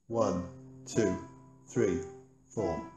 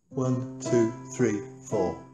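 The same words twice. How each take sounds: First: The counting is at a slower pace. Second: The counting is at a faster pace.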